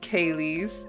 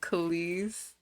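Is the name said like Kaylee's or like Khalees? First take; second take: Kaylee's; Khalees. First: The name sounds like Kaylee's. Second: The name sounds like Khalees. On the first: This is the intended name. The speaker calls it right. "But it's it's Kaylee's" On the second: This is how others say the name. The speaker calls it wrong. "so that was my bad for everybody calling it Khalees"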